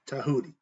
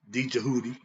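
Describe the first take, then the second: First: The name begins with a T sound. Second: The name begins with a sounded D. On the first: The speaker calls it right. "D, which is silent" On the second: The speaker calls it wrong. "not D Jahudi"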